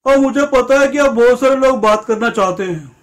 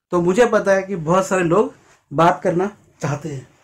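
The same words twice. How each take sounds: First: Higher, louder grandmotherly voice; grandma speaking. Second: Said in the usual way. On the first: Retold or imitated. Grandma announcing that many people want to talk, in a granny voice. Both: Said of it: "अब दादी बोली".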